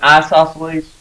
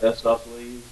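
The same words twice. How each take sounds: First: The first vowel is a long I sound. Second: The first vowel is a short I sound. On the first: "I call it an isosceles" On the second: "some of you pronounce that isosceles, a short I"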